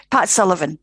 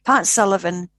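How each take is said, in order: Both takes have the same delivery.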